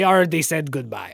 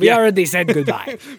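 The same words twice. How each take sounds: First: It is spoken in the speaker's plain accent. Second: It is spoken in an imitated German accent.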